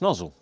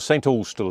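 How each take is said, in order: First: It is said quickly, squashed into one word. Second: Both words are said fully and distinctly. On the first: "If you say it quickly" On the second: "as I say"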